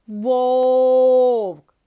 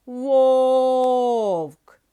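First: Вовк said very loud with the long О; stressed vowel drawn out again. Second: Вовк said loud with the О held long; stressed vowel drawn out. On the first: Teacher repeating for pupils, loud drawn-out vowel. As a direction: sing out the О in Вовк. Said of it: "І ще раз". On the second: Teacher showing the stress, loud drawn-out vowel. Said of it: "визначимо наголос". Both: Shown as a demonstration.

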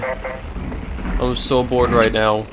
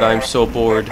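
First: Bored drawl. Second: Said in the usual way. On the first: Shown as a demonstration.

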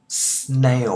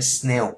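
First: "Snail" louder, with an ay glide and fall; "Snail" with a long diphthong; correct snail. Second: "snail" as flat "sne"; "snail" with no glide; wrong snail. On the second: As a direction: clip "snail" short. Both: Shown as a demonstration. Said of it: "Không phải snail".

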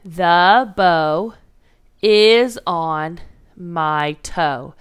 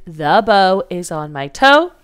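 First: Slow, word by word; 1 counting words slowly. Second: Said in the usual way. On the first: Shown as a demonstration. Teacher to class, counting words in slow steps. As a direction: space out each word to count them. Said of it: "Let's count it out". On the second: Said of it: "It's also a regular statement".

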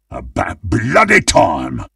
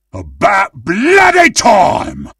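First: Restrained, impatient butcher's grumble. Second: High-pitched shout of impatience; impatient battle cry. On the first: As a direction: grumble it without shouting, leaning on "bloody". Same line, restrained take. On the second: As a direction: cry it out, punching "bloody". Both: Acted.

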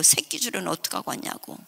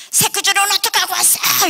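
First: Said in the usual way. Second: Very high, loud scolding; angry shrieked demand. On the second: Retold or imitated. Stepmother confronting father over the rope, shrieking. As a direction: shriek it like an accusation.

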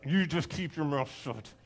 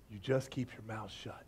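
First: Low growl through gritted teeth; tight, seething, teeth-clenched order. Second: Low, very soft, held-back warning; quiet, controlled threat; restrained anger. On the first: Shown as a demonstration. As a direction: force it out with the jaw locked. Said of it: "I imagine he said it through clenched teeth". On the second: Acted. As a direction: say it under the breath, barely contained. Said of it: "he said it through clenched teeth".

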